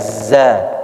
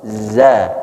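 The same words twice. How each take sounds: First: The z is hissed like an s. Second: The z is voiced without any hiss. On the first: The speaker calls it wrong. "tidak ada za" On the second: The speaker calls it right. "Harus za"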